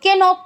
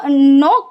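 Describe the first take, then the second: First: The word begins with a k sound before n. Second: The word begins with an n sound, no k. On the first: The speaker calls it wrong. "तो पढ़ते नहीं हो" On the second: The speaker calls it right. "तो नॉक पढ़ते हो"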